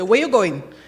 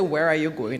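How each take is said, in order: First: It is said in a local island dialect. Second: It is said in standard English. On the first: This is how locals actually say it. "if you speak in our, our migratory, we say" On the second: Locals do not say it this way. "we don't say"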